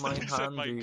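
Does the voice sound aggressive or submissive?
submissive. It is said softly and meekly. "the way of sounding like the submissive one going"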